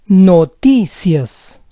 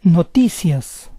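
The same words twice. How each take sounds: First: Noticias slowly split as no-TI-cias; syllable by syllable. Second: Said in the usual way. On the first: Shown as a demonstration. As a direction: say Noticias slowly in parts, stressing TI. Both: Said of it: "try to understand the rules".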